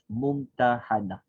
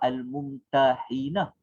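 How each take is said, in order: First: The vowel before the final n is 'a'. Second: The vowel before the final n is 'i'. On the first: The woman who has been tested. "yang telah diuji" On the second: The one who does the testing. "berbaris kasrah, berbaris bawah"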